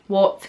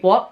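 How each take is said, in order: First: The final T is clearly pronounced. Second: The final T is replaced by a glottal stop. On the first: "A lot of people would say" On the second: "I'd say like"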